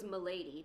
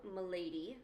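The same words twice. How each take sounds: First: "M'lady" said with a settled falling tune, mock British; a firm courtly "M'lady" closing down. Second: "m'lady" said with a lilting rise, mock British; a courtly "m'lady" drawn upward. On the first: Corbeau repeating his greeting, falling mock British "M'lady". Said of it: "because that's what he does". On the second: Corbeau greeting the listener, rising mock British "m'lady". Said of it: "he goes".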